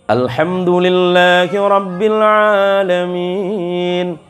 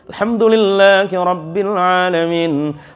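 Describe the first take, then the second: First: It is recited slowly and carefully. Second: It is recited somewhat faster. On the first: "Kalau tartil itu yang seperti beliau-beliau" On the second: "Udah turun sikit aja"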